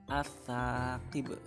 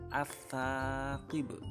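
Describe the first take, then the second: The two takes are said the same way.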